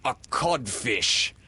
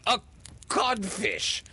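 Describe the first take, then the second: First: Slow, loud, higher verdict; mocking reply. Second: Very high echoed exclamation; stunned echo. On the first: Peter as Hook insulting the real captain, mocking. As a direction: pronounce the insult slowly as the captain. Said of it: "replied the voice". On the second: Hook repeating the insult thrown at him, stunned. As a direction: echo it in disbelief, pitched way up. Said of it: "Hook echoed". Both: A narrator's reading.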